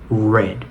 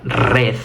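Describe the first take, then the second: First: The r is made with the tongue pulled back. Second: The r is a quick tongue-tip trill. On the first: The speaker calls it right. "sino red" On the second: The speaker calls it wrong. "no sería red"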